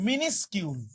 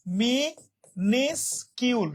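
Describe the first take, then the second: First: মিনিসকিউল said as one word, "mi-nis-kyul"; pronunciation model. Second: মিনিসকিউল very slowly as mi, nis, kyul; syllable by syllable. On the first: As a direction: model মিনিসকিউল with a short "mi" and falling end. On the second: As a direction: separate the three parts of মিনিসকিউল with clear pauses. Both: Shown as a demonstration. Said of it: "উচ্চারণটা হবে এরকম".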